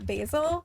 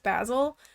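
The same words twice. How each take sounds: First: The name is pronounced the American way. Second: The name is pronounced the British way. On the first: "which is how we say it in the U S" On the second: "in like the U K it's often pronounced Basil"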